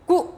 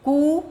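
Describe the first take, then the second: First: कु clipped quick, a brief u; short u. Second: कु held long, the oo stretched and raised. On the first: Teacher contrasting short u for students, quick कु. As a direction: say कु fast and short. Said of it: "जल्दी". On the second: Teacher contrasting long oo for students, stretched कु. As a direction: draw out कु with a long oo. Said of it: "देर". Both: Shown as a demonstration.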